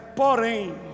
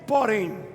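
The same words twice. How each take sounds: First: It is said in a powerful prophetic voice. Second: It is said in a plain, ordinary voice.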